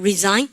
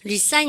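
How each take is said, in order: First: The middle consonant is a Z sound. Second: The middle consonant is an S sound. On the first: The speaker calls it right. "발음 Z 발음 발음가" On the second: The speaker calls it wrong. "resign 아닙니다"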